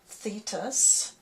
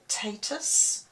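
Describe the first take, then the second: First: The name starts with a th sound. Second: The name starts with a plain t sound. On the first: The speaker calls it wrong. "it looks like Thetis with a T H" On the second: The speaker calls it right. "usually you say that as a T, so Tatus I think is the correct way"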